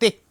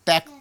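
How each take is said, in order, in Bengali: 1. প্রথম স্বরধ্বনিটি e-এর মতো উচ্চারিত হয়। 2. প্রথম স্বরধ্বনিটি æ-এর মতো উচ্চারিত হয়। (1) "তেক্ত নয়" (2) "ত্যক্ত মানে বিরক্ত"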